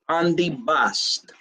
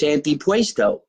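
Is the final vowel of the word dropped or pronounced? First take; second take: dropped; pronounced. First: The word ends without a final vowel. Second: The word ends with a final vowel. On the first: This is how the family says it. The speaker calls it right. "In our house, we call this antipast" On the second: This is how most people say it. The speaker calls it wrong. "Most people call this antipuesto"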